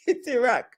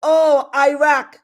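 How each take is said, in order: First: "Iraq" said as ih-RAH, short i, soft ending; "Iraq" the Iranian way, ih-RAH; correct Iraq. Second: "Iraq" said as eye-RACK, slow and a bit louder; mocking "Iraq" said as eye-RACK; mock American Iraq. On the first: Shown as a demonstration. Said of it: "which Iraq are you racking". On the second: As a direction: drawl "Iraq" with a long eye sound, like the Americans she mocks. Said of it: "And then they go".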